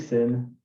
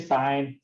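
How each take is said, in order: First: The word has a short vowel, like 'pin'. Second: The word has a long vowel, like 'pine'. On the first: The speaker calls it wrong. "Don't say sin" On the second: The speaker calls it right. "It's the correct way of saying it"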